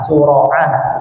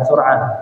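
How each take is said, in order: First: A vowel follows the r sound. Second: No vowel follows the r sound. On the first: The speaker calls it right. "sura'ah bukan sur'ah" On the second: The speaker calls it wrong. "bukan sur'ah"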